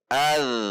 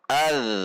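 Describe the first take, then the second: First: The final z sound flows on continuously. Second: The same.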